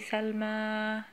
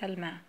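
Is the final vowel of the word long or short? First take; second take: long; short. First: The final vowel is drawn out long. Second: The final vowel is cut off short. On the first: The speaker calls it wrong. "you don't say Salma" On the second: The speaker calls it right. "you say Salma, and just stop right away"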